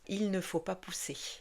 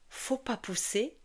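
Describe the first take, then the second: First: The words 'il' and 'ne' are fully pronounced. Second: The words 'il' and 'ne' are dropped. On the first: This is the full standard form. "au lieu de" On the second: This is the casual spoken form. "Ils auront tendance à dire"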